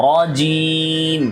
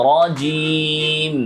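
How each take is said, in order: The two takes are said the same way.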